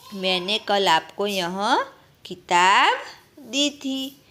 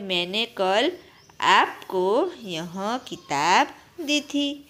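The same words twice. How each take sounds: First: The stress is on किताब. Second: The stress is on आपको.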